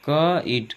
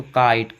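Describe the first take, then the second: First: "क ईट" broken into क and ईट; split pronunciation. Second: Said in the usual way. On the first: Shown as a demonstration. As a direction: sound out "क ... ईट" slowly in two parts. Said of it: "अगला है दोस्तों काइट". ("क ... ईट" को दो हिस्सों में तोड़कर) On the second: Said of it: "क्या क ईट".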